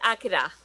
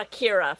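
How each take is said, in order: First: The name is said with Japanese-style pronunciation. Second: The name is said with English-style pronunciation.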